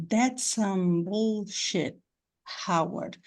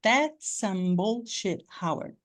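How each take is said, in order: First: "that's some" with one S only, slow; slow drill merging the two S sounds; single S linking. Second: Slow, "That's some" with the S said just once; teacher repeats with the doubled S said once; one S only. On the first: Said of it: "Temos um S aqui e mais um S aqui". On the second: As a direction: merge "That's some" into a single S. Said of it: "Vocês viram que eles só falam um S?". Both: Shown as a demonstration.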